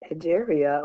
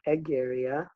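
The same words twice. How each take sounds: First: The name is pronounced the English way. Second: The name is pronounced the Latin way.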